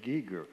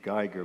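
First: The name is pronounced the Carolina backcountry way. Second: The name is pronounced the German way. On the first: "but in the Carolina backcountry, it's the Geiger" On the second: "every German would say it's supposed to be Geiger"

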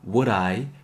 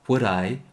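First: The two words are said separately. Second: The two words are linked together smoothly. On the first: The speaker calls it wrong. "Would I 보다는" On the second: The speaker calls it right. "would I 정도로 발음해 주세요. 붙여서"

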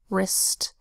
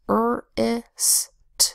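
First: The word is said quickly as one blended unit. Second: The word is sounded out slowly, sound by sound. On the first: "Say it fast" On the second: "a closed-syllable word that says r-i-s-t"

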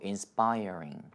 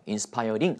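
First: The r is a full English r. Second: The r is a light tap. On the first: The speaker calls it right. "R 사운드는 리을 발음이 아니에요" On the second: The speaker calls it wrong. "하지 않고"

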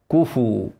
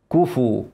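Both takes have the same delivery.

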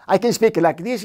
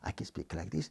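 First: It is said in an irritated, impassioned voice. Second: It is said in a calm, neutral voice.

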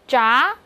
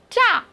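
First: The pitch rises from mid to high. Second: The pitch falls sharply from high to low.

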